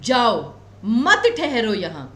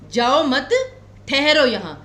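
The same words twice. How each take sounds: First: The pause comes after the first word. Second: The pause comes after the second word. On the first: The listener is told to go and not stay. "केवल और केवल इतना था कि आपने break कहां पर लिया" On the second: The listener is asked not to go but to stay. "तो मैं आपको रुकने के लिए कह रही हूं"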